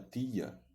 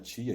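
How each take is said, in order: First: The word is said in a Pernambuco accent. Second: The word is said in a non-Pernambuco accent. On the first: This is how people from Pernambuco say it. "ele fala tia" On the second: This is how people outside Pernambuco say it. "o pernambucano ele não fala tia"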